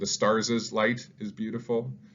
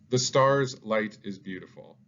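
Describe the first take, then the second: First: The word stars has an extra syllable. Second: The word stars has one syllable. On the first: The speaker calls it wrong. "I'm not saying" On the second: The speaker calls it right. "I'm not adding on an extra syllable"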